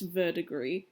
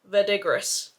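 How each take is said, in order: First: The word is pronounced the French way. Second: The word is pronounced the English way. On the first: The speaker calls it right. "it's French" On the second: The speaker calls it wrong. "I'm not going to pronounce this right"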